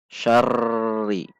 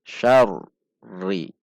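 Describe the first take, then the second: First: "syarri" dengan r bergetar rata tanpa putus; tekanan sama. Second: "Syarri" seakan berhenti pada r, lalu naik; hendak berhenti, naik. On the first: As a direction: tahan getar r rata pada "syarri". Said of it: "Itu berarti tekanannya sama". (contoh salah: "syarri" bertekanan tetap) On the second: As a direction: pisahkan "Syar" dan "ri" dengan jeda kecil. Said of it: "seperti hendak berhenti". (r "Syarri" tertahan sejenak) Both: Shown as a demonstration.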